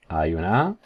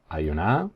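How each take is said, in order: Both takes have the same delivery.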